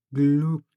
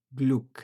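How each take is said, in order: First: গ্লুক with a clear long u and hard k; teacher repeating a German word for the class, firm; german word spoken slowly. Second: Said in the usual way. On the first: Shown as a demonstration. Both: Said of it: "যেমন".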